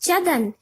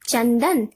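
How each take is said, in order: First: The word is said without a nasal sound. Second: The word is said with a nasal sound. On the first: "दूसरा शब्द है चदन" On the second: "जब हम अनुस्वार लगाते हैं तो बन जाता है चंदन"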